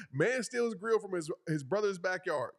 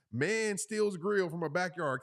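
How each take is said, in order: First: Mock headline. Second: Slow, deliberate news-headline read; mock headline. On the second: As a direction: announce it like a tabloid headline. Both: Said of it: "Can't you imagine that title?".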